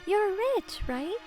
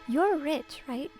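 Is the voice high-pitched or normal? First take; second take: high-pitched; normal. First: It is said in a very high-pitched voice. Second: It is said in a normal voice.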